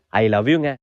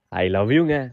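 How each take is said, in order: First: It is said in a plain, ordinary tone. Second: It is said in a soft, romantic tone.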